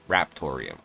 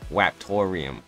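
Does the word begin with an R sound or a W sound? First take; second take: R sound; W sound. First: The word begins with an R sound. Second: The word begins with a W sound. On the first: The speaker calls it right. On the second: The speaker calls it wrong.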